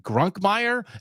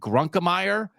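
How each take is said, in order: First: There is no extra syllable after Grunk. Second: There is an extra syllable after Grunk. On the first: The speaker calls it right. "We're not adding the extra syllable" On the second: The speaker calls it wrong. "the extra syllable"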